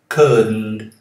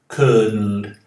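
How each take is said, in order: First: The D runs straight into the N sound. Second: The D runs straight into the N sound.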